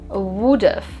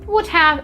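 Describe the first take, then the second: First: The words are blended, with 'have' reduced. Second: Both words are said fully and separately. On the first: The speaker calls it right. "the best pronunciation of these two words is would have" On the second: The speaker calls it wrong. "would have isn't so natural"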